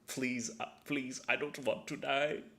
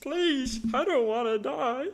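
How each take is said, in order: First: It is said in a plainer, weaker character voice. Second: It is said in a stronger, put-on creature voice.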